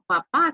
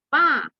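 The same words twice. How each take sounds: First: Said in the usual way. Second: Pa, just the first syllable of papá; clipped pa. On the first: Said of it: "no le decimos papá". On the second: Shown as a demonstration. Teacher showing how families shorten papá, casual pa. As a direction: cut papá down to pa, a little quicker. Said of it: "sino que le decimos pa".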